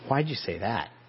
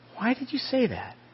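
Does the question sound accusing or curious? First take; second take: accusing; curious. First: The question sounds sharp and accusing. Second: The question sounds open and genuinely curious. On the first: The asker is challenging and blaming. "an accusation" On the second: The asker honestly wants to understand. "an honest inquiry"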